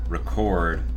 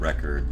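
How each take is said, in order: First: The stress is on the second syllable. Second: The stress is on the first syllable. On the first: It is an action being done. "if it's a verb, the second syllable gets the emphasis" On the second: It names a thing. "if it's a noun, the first syllable does"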